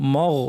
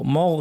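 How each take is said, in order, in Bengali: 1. m ধ্বনিটি ভারী ও গাঢ়। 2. m ধ্বনিটি ভারী ও গাঢ়।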